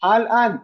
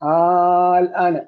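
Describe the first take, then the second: First: The long vowel is held for a normal length. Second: The long vowel is held for a very long time. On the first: It is spoken as everyday Arabic. "ഭാഷ പറയുമ്പോഴത്തേക്ക് അത് ഇത് പോലെയല്ല" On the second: It is read as Quranic recitation. "ഖുറാനിൽ ആറ് ഹർക്കത്ത് നീട്ടണം അവിടെ"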